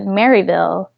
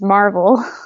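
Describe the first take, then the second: First: The name is said in full, Mary-ville. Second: The name is shortened to sound like Marvel. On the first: This is how outsiders say it. "Who's not from our area calls it Maryville" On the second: This is how locals say it. "in our area, local dialect is Marvel"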